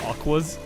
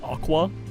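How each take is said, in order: First: The word ends with an s sound. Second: The word ends without an s sound. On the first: The speaker calls it wrong. "not Aquas" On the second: The speaker calls it right. "So it's just Aqua"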